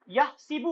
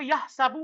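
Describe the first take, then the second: First: The vowel after the s is 'i'. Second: The vowel after the s is 'a'. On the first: This is the form given in the dictionary. "Dictionary में जेर आएगा आपको" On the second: This is the reading found in the Quran recitation. "Quran मजीद में जबर आया था"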